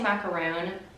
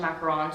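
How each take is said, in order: First: The last syllable has a long 'oo' vowel. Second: The last syllable has a short 'on' vowel. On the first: The speaker calls it wrong. "I always want to say macaroon" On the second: The speaker calls it right. "I know it's actually a macaron"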